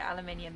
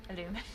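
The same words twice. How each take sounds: First: Said in the usual way. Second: "aluminum" as a-LOO-mi-num, breaking into a laugh; awkward American pronunciation. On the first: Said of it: "gonna end up calling it aluminium". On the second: Shown as a demonstration. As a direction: try the unfamiliar American "aluminum", stressing "lu". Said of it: "it feels really weird to say".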